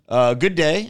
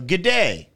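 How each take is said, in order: First: It is said as two full words. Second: It is said as one contracted word. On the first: The speaker calls it wrong. "I've been saying that wrong every time" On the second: The speaker calls it right. "Real quick, it's g'day"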